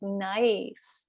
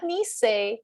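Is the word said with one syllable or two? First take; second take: one; two. First: The word is said as one syllable. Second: The word is said as two syllables. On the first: The speaker calls it right. "It's nice" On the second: The speaker calls it wrong. "not nisei"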